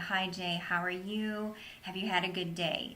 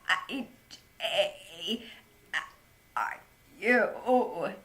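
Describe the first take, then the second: First: The voice flows smoothly without breaks. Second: The voice is strained and broken by spasms. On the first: "if I were talking to you and I were just to say" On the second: "if I were to try to speak that with my spasmodic dysphonia, it would come out something like this"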